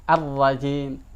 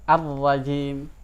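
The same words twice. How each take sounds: No difference in how they are said.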